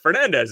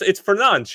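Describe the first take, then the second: First: The name has an English pronunciation. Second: The name has a Portuguese pronunciation. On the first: This is how most commentators say the name. "that's the anglicized version" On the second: This is how native speakers say the name. "a member of my family who is Portuguese and speaks fluent Portuguese ... they're like it's Fernandes"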